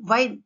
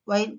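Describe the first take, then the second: First: "వైన్" with a clear V onset; V sound. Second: "వైన్" as wine, lips rounded; "వైన్" with lips pushed forward; W sound. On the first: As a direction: start "వైన్" with V. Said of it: "వి sound ఎలా వస్తుంది?". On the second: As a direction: start "వైన్" with W. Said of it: "mouth shape changes". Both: Shown as a demonstration.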